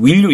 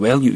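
First: "will you" with a clear short i; textbook pronunciation. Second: "well you", will opened to "eh"; how it really sounds. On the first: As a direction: say "will you" just as written. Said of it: "이렇게 발음 안 하고요". ("will you"를 쓰인 대로 "윌유") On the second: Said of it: "이렇게 발음하는, 들리는 경우가". (실제 들리는 대로 "well you", "웰유") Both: Shown as a demonstration.

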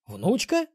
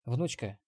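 First: High, rising disbelief; stunned. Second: Said in the usual way. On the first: Acted. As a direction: blurt it out in shock. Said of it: "опешил Ксенобайт".

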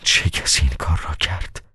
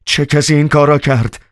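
First: Soft, hushed question; a whisper of disbelief, barely voiced. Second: High, alarmed yell; a sudden frantic shout at the governor; wild shout. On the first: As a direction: breathe it out in a stunned whisper. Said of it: "باجگیر دوباره به زمزمه گفت". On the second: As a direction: cry it out wildly in shock. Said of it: "وحشیانه به اطراف نگاه کرد و فریاد زد". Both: A narrator's reading.

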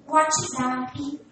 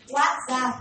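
First: WhatsApp said as uatchizapi, with added vowels; Brazilian pronunciation. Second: WhatsApp said close to English, as uatzap; English-style pronunciation. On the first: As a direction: say WhatsApp the Brazilian way, adding i sounds between the consonants. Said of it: "não é assim?". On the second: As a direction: say WhatsApp the English way, with no added vowels. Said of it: "o que que a gente fala?". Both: Shown as a demonstration.

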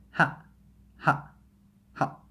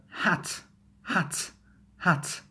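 First: "hat" as ha', cut short; glottal T. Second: Said in the usual way. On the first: Shown as a demonstration. Teacher suggesting how you might say it, glottal "hat". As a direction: say "hat" without releasing the T. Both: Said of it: "You might say like".

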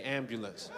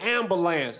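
First: Said in the usual way. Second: "ambulance" without the y sound, last syllable drawn out as "lance"; rapper-style AMBULANCE. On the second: Retold or imitated. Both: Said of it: "That's how rappers say ambulance".

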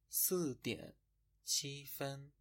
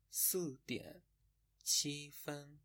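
No difference in how they are said.

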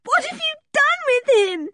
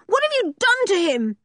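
First: High-pitched tearful demand; distraught, very high crying voice; sobbing. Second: High, frantic demand; anguished high-pitched accusation; crying out. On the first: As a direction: wail the question through sobs. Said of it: "she sobbed". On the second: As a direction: cry out in outrage and fear. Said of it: "she cried". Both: A narrator's reading.

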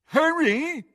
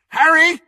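First: High-pitched mocking call; mocking mimicry. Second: High urgent call; shouted call. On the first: Crabbe mocks Ron's call, mimicking. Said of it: "mimicked Crabbe". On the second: Ron to Harry through the junk wall, shout. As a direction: shout for a friend out of sight. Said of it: "shouted Ron again". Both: A narrator's reading.

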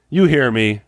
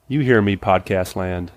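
First: Said in the usual way. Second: "You hear me" drawn out slowly to the audience; preacher calling out "You hear me, podcast land"; slow emphatic call. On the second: Real, not acted.

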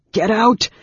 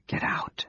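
First: Loud, high, forceful outburst; panted order. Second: Spent, unvoiced whisper; nearly inaudible. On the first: Raistlin driving Anne Beryl away, loud and panting. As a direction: shout her away with failing breath. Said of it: "Raistlin panted". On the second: Raistlin sunk in his chair ordering her out, barely audible. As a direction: whisper it with the last of your breath. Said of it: "Though the words were inaudible". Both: A narrator's reading.

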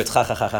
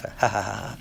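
First: Ha, ha, ha, ha with a throaty Hebrew ch sound, xa xa xa; Hebrew ha laugh. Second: Ha, ha, ha, ha with a soft English h, quiet and breathy; English ha laugh. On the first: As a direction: rasp each ha from the throat like Hebrew ח. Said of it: "In Hebrew". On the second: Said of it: "how do you laugh?". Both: Shown as a demonstration.

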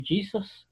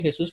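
First: "Jesus" said the English way, JEE-zus, higher and softer; "Jesus" in English, not Spanish; English pronunciation. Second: Said in the usual way. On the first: Shown as a demonstration. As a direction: say "Jesus" as an English speaker would, stress on the first syllable. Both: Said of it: "en inglés no es Jesús".

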